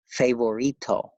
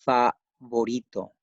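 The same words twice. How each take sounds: First: Favorito with "fay" first, as in English favorite; English-influenced mispronunciation. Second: Favorito with an open "fah" first, syllables set apart; correct Spanish pronunciation. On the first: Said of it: "you might tend to pronounce it like". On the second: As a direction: say favorito as fah, then vo-REE-to with a tapped r. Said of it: "Please pronounce it like". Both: Shown as a demonstration.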